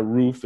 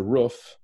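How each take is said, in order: First: "roof" said as rooof, long oo like in food; "roof" with the long vowel of "food". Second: "roof" said with the short vowel of "book", rising; "roof" clipped short, vowel as in "foot". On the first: Husband demos one way to say roof, "roof" with long oo. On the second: Husband demos the other way to say roof, "roof" short like "foot". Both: Shown as a demonstration. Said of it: "it's not a roof, it's a roof".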